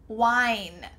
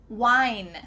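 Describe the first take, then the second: No difference in how they are said.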